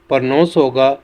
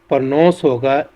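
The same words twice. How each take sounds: No difference in how they are said.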